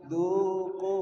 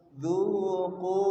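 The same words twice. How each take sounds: First: A teacher's model Dzuqu; repeated demo. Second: Dzuqu with a voiced dz and a heavy q; Arabic demo word. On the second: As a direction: model dzuqu clearly for students. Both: Shown as a demonstration.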